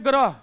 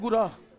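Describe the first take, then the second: First: The word starts with a gra cluster. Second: The word starts with gu, a u-like vowel. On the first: This is how speakers from Uttar Pradesh say it. The speaker calls it wrong. "उत्तर प्रदेशी कहेंगे" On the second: This is the proper form of the word. The speaker calls it right. "जबकि ये होता क्या है"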